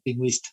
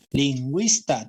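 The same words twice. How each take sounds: First: Said in the usual way. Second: "Lingüista" drawn out to show its stressed syllable; stressed syllable demo. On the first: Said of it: "La sílaba tónica está". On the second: Shown as a demonstration. Teacher showing students where the stress falls, deliberate stress on "Lingüista". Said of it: "La sílaba tónica está en esta posición".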